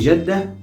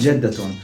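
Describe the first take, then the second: First: The word ends without a final t sound. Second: The word ends with a pronounced t sound. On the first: It is the casual everyday form. "in local or informal speech, we don't really care about how to pronounce it with a ta sound or with a ha sound" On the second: It is the formal correct form. "jaddatun is the right pronunciation of the word grandma"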